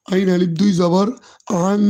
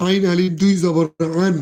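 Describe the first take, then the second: First: "আং" held as a nasal hum for one beat; nasal ghunnah. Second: Said in the usual way. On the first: Shown as a demonstration. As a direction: spell it out, then hum the n of "আং" through the nose. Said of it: "এক আলিফ পরিমাণ গুণনা করে পড়ব". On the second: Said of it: "আংকে আমরা এক আলিফ পরিমাণ গুণনা করে পড়ব".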